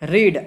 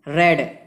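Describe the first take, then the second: First: The vowel is a long 'ee' sound. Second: The vowel is a short 'e' sound. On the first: It is the present form, meaning to read. "रीड means पढ़ना" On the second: It is the past form, meaning read before. "लेकिन उसको उच्चारण करते हैं रेड"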